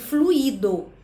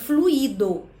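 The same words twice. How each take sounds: First: The stress falls on the I vowel. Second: The same.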